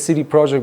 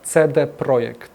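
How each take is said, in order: First: The name is pronounced with English sounds. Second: The name is pronounced with Polish sounds. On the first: This is how most people say it. The speaker calls it wrong. "everybody says" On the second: This is how the company itself says it. The speaker calls it right. "we're a Polish company, so the proper pronunciation is"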